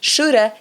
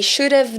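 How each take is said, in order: First: The words blend into one, 'have' becomes 'a'. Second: Both words are said fully and separately. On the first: "essa junção de sons que faz com que a gente fale shoulda" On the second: "é como se a gente tivesse uma, uma continuação aí"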